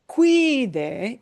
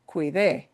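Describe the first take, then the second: First: The stress is on the first syllable. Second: The stress is on the last syllable. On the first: The speaker calls it wrong. "It's not cuide" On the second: The speaker calls it right. "I am breaking the stress pattern"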